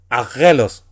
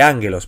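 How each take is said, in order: First: The middle cluster is said as a double g. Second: The middle cluster is said as n plus g. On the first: The speaker calls it wrong. "la palabra aquí no es angelos" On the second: The speaker calls it right. "sino que ángelos, porque ... la primera gamma siempre se pronuncia como N"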